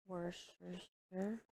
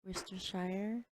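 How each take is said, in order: First: Worcestershire slurred slowly as "wer-sher-er", syllables dropped; stumbling mispronunciation. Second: Worcestershire repeated as "wiss-ter-shy-er", all syllables clear; corrected pronunciation. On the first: Real, not acted. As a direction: drag out Worcestershire, mangling it into three blurred syllables. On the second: Shown as a demonstration. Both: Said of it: "it's so hard to pronounce".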